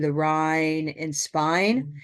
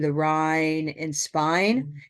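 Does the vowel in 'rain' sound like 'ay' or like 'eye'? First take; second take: eye; eye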